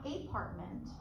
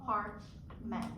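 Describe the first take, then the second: First: "apartment" with a full ay vowel at the start; wrong full A. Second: "apartment" slowly, with a light uh at the start; apartment with schwa. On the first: Teacher showing a student the wrong "apartment". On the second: Teacher modelling "apartment" slowly for a student. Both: Shown as a demonstration. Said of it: "not apartment".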